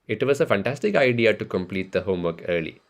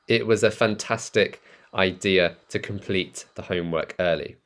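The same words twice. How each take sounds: First: It is said in an Indian accent, W as V. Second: It is said without an Indian accent.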